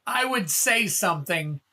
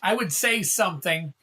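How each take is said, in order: Both takes have the same delivery.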